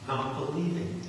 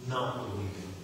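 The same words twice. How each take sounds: First: Said in the usual way. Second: Softer and lower, pressing the word "Not"; quiet emphatic repeat. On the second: Shown as a demonstration. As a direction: drop to a low, hushed repeat.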